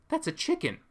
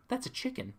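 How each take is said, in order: First: Much higher "That's a chicken." with a fuller voice; excited confirmation. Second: Higher, quieter, half-disbelieving "That's a chicken."; stunned realization. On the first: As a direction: say "That's a chicken." again, now thrilled. Repeats it, more excited. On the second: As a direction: murmur "That's a chicken." like you can't believe your eyes. Retelling spotting a chicken. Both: Retold or imitated.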